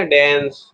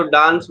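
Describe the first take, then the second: First: "डांस" as daens, vowel of cat; effortless American pronunciation. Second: "डांस" pushed out with a long aa; effortful Indian pronunciation. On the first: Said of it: "अपने आप ही निकल जाएगा". (सहज अमेरिकी उच्चारण, डांस को डैंस की तरह) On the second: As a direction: put real energy into डांस, open aa. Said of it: "बोलने के लिए पहले एक रोटी". (ज़ोर लगाकर भारतीय ढंग का डांस, लंबा आ) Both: Shown as a demonstration.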